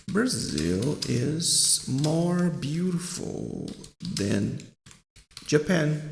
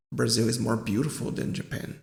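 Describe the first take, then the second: First: Drawn-out words, paced piece by piece; slow example sentence. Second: Said in the usual way. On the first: Shown as a demonstration. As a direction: stretch each word with pauses between. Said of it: "por exemplo, assim". (frase de exemplo bem devagar, palavra por palavra)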